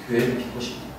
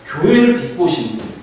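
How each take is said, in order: First: Whispered repeat. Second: Said in the usual way. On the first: Shown as a demonstration. Repeats line, second time whispered.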